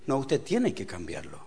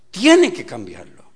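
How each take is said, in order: First: Said in the usual way. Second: Loud, slow stress on "Tiene"; emphatic repeat. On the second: Real, not acted. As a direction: hammer "Tiene" hard and draw it out.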